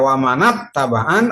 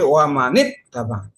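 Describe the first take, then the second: First: The n of man is followed by a. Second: The n of man is followed by i. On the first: The speaker calls it wrong. "Tidak dibaca" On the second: The speaker calls it right. "tetapi wa manit tabaan"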